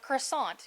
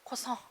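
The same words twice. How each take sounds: First: It is said with an American English pronunciation. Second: It is said with a French pronunciation. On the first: The speaker is from America. The speaker calls it right. "When you're American, you say a croissant" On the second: The speaker would be French. The speaker calls it wrong. "You don't say croissant because we're not French"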